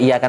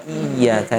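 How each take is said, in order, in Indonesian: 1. Bunyi y-nya pendek dan tunggal. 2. Bunyi y-nya ditahan dan dobel.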